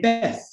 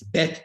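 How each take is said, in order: First: The word ends with a th sound. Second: The word ends with a plain t sound. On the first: This is an older regional Hebrew pronunciation. "She would actually say Beth" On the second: This is the modern Hebrew pronunciation. "in modern Hebrew it's it's Bet Tikva"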